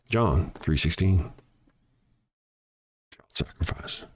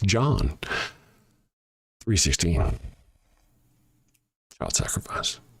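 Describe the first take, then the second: First: It is said at normal speed. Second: It is said slowly.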